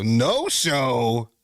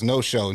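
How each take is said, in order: First: "No show" drawn out, swooping up at the end; incredulous echo. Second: Said in the usual way. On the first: Real, not acted. Streamer repeating chat's accusation back, "No show" incredulous and rising. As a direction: question "No show" in disbelief, stretching "show" upward. Stunned by chat calling him no-show.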